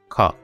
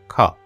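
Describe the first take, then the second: The two takes are said the same way.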